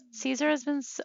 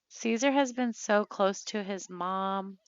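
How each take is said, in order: First: High, choked-up start that breaks off; about to cry over her sim, words catch; voice breaking. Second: Said in the usual way. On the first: Real, not acted. Player mourning her sim, voice breaking. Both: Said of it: "oh, I'm gonna cry".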